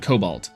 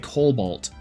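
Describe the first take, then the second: First: The first syllable has no added L sound. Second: The first syllable has an added L sound.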